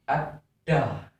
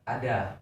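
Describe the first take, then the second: First: The middle consonant is pressed and held. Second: The middle consonant is said plain, not pressed. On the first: The speaker calls it right. "Tapi ditekan ada" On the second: The speaker calls it wrong. "Bukan ada, bukan gitu"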